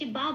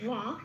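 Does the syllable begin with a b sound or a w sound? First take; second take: b sound; w sound. First: The syllable begins with a b sound. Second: The syllable begins with a w sound. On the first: The speaker calls it wrong. "বা বলছি না" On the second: The speaker calls it right. "এটা বলছি"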